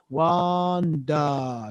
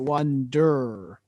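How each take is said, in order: First: The word ends in a plain schwa, no R. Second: The word ends in an R-colored vowel. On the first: The speaker calls it right. "We basically sing it as a schwa" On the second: The speaker calls it wrong. "not wonder"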